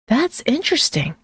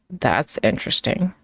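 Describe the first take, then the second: First: It is said with genuine, curious interest. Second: It is said flatly after a pause. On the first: It is a compliment. "said with genuine curiosity" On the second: It is a dismissal. "said flatly with a pause before it"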